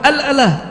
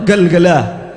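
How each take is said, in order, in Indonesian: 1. Suku katanya dimulai dengan vokal, tanpa k. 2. Suku katanya dimulai dengan bunyi g yang keras. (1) "Kalau orang Mesir bilang" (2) "orang Yaman, kofnya jadi ganti go"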